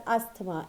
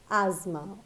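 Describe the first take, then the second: First: ASTHMA with the th sounded as t; common mistake. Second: ASTHMA as "AZ-ma", th silent; correct pronunciation. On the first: Teacher recalls people around her, asthma as "as-tuh-ma". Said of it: "people around me who used to call it". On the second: Teacher gives learners the right sound, asthma as "az-ma". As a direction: say asthma with a z, two syllables. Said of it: "So it is pronounced as asthma". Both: Shown as a demonstration.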